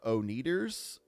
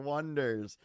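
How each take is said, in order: First: The name begins with an 'oh' sound. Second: The name begins with a 'won' sound. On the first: The name was misread from its spelling. The speaker calls it wrong. "the presenter said, uh, "Up next is the uh, O-Neaters."" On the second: The name is a pun on the number one. The speaker calls it right. "no, it's the Wonders"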